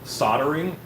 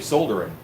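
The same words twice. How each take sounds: First: It is said the American way. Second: It is said the British way. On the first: "when I say soldering" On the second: "half the time I'll say soldering, because that's the person who talked to me about it... he said he was from the U K"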